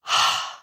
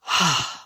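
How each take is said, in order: First: A weary, let-it-all-go sigh; tired end-of-day sigh. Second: A long, open sigh letting the breath go; big sigh. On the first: Teacher showing the exhale as an end-of-day sigh. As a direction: sigh like you just got home after a long day. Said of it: "Like at the end of the day". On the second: Teacher showing students how to let the exhale go, a big sigh. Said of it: "like a big sigh". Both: Shown as a demonstration.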